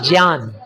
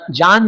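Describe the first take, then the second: First: The word begins with a 'gy' sound. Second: The word begins with a plain 'j' sound. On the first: The speaker calls it right. "अच्छा हिंदी का उच्चारण करते हैं ... बोलते हैं ज्ञान" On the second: The speaker calls it wrong. "जान नहीं"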